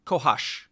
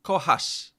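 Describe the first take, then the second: First: "kochasz" ending in a full sh sound. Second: "Kochasz" ending in a sharp s sound; front s. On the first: Contrasting the two endings for the tutor, sh second. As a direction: finish "kochasz" on sh, tongue further back. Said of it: "As opposed to". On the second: Contrasting the two endings for the tutor, front s first. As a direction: end "Kochasz" on s with the tongue forward. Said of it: "As opposed to kochasz". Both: Shown as a demonstration.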